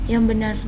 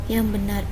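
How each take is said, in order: No difference in how they are said.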